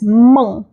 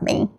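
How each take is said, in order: First: The vowel is an 'ong' made back in the throat. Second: The vowel is made further forward, not throaty. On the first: The speaker calls it right. "like you say "ong" with your throat" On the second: The speaker calls it wrong. "A lot of people pronounce it as Meng. It's not Meng"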